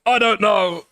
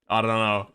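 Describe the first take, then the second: First: High, loud outburst; exasperated indecision. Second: Said in the usual way. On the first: Real, not acted. Streamer torn over changing her opinion, loud high outburst. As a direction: blurt it louder and higher.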